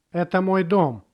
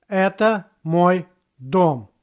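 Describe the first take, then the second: First: Said in the usual way. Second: Word by word. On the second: Shown as a demonstration. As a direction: separate each word of Это мой дом for a learner. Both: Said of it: "how it looks in a simple sentence".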